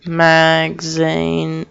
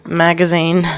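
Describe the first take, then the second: First: Very slowly stretched syllables; slow, syllable-by-syllable delivery; drawn-out word. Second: Said in the usual way. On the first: Real, not acted. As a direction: drag out each syllable of "magazine". Stretches word, then says it normally.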